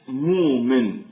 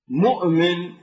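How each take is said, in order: First: A long vowel replaces the glottal stop. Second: A glottal stop is heard in the middle. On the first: This is the Hijazi dialect form. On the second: This is the Tamimi dialect form.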